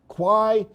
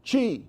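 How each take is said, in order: First: The word sounds like 'kwai'. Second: The word sounds like 'chee'. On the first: The speaker calls it wrong. "you would think you would pronounce it Quai, but you don't" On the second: The speaker calls it right. "You pronounce it Chi"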